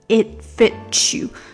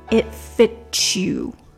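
No difference in how they are said.

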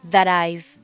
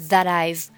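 First: The t of that links into I've. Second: The same.

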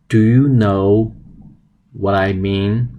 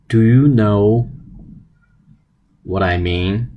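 No difference in how they are said.

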